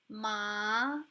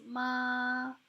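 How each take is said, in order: First: The pitch rises upward. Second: The pitch stays steady and level. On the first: It means numbness. "The rising tone" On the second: It means mom. "So this is the basic tone"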